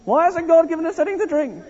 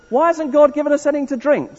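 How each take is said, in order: First: Whining. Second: High-pitched grumble, like a moaning Israelite; grumbling complaint.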